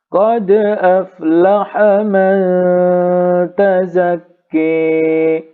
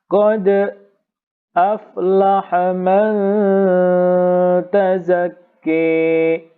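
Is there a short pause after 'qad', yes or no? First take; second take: no; yes. First: The words run on with no pause after qad. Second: A brief pause follows qad before the next word. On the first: "Sekarang yang tahqiq dulu" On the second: "Imam Khalaf ada saktahnya"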